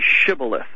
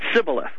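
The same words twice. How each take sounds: First: The word begins with an 'sh' sound. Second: The word begins with an 's' sound. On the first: The speaker belongs to the tribe. The speaker calls it right. "That S-H, sh sound" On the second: The speaker is not part of the tribe. The speaker calls it wrong. "They would say just the long S, the S"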